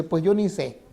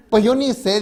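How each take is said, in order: First: Said in the usual way. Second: Higher, louder imitation of a bewildered old woman; mock old lady. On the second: Preacher mimicking the old lady's clueless answer, higher and louder. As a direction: play her helpless shrug, pitched up and louder.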